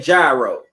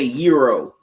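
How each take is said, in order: First: The word begins with a hard G sound. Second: The word begins with a Y sound. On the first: This is how people in the speaker's city say it. "the G is not silent in Cleveland" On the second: This is how many other people say it. "a lot of y'all say euro"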